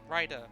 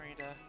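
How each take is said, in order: First: The first vowel sounds like 'eye' in 'ride'. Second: The first vowel sounds like 'ee' in 'read'. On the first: The speaker calls it right. "Rider. Not Reader" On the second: The speaker calls it wrong. "I messed up the pronunciation of my own O C"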